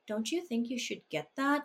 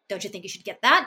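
First: It sounds concerned and a bit patronizing. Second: It sounds critical and sharp.

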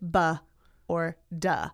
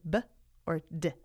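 First: Each consonant is followed by an added vowel sound. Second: Each consonant is clipped with no added vowel. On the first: The speaker calls it wrong. "They don't say B or D" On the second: The speaker calls it right. "They say B or D"

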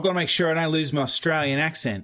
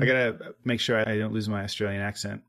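First: It has an exaggerated, broad Australian accent. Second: It has a mild, everyday Australian accent.

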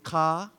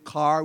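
First: It is said in a Belizean Creole accent. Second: It is said in a standard English accent. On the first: "we say ka" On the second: "We don't say car"

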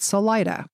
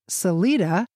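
First: The name is said with a local English pronunciation. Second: The name is said with a Spanish pronunciation. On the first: This is how the town's residents say it. "the residents always pronounced it" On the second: This is how Spanish speakers say it. "the Spanish pronounce it"

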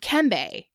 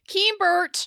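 First: The name is said the Creole way. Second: The name is said the American way. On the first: "that's more of the Creole pronunciation" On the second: "which is how everyone pronounced it in the U.S"

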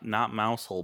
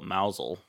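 First: It is said as mouse plus hole. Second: It is said as two syllables, mow-zel. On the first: The speaker calls it wrong. "Not mousehole" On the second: The speaker calls it right. "but mousel"

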